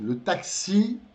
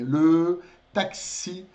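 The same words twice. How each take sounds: First: Said in the usual way. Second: Slow, drawn-out "Le taxi" with a clear rounded E in "Le"; teacher modelling "Le taxi" slowly; careful French le. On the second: Shown as a demonstration. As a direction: stretch "Le" slowly so its E is heard, then "taxi". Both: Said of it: "um bocadinho o som de E".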